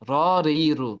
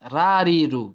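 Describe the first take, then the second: First: The first vowel sounds rounded, like o. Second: The first vowel sounds open, like a. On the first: The speaker calls it right. "র এর সাউন্ডটা হবে যে র রি রু" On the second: The speaker calls it wrong. "Not রা রি রু"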